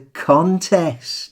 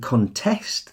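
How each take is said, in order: First: The stress is on the first syllable. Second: The stress is on the second syllable. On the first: It means a competition. "Meaning a competition" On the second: It means to disagree with or dispute something. "depending on which syllable you stress, can function as either a noun or a verb"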